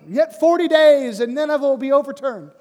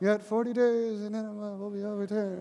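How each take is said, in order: First: It is said like a passionate, compelling sermon. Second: It is said in a reluctant, half-hearted way.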